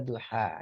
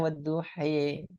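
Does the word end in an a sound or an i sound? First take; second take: a sound; i sound. First: The word ends in an open a vowel. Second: The word ends in an i-like vowel. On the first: The speaker calls it right. "tapi bacanya wadduha ya" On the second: The speaker calls it wrong. "jangan baca wadduhi"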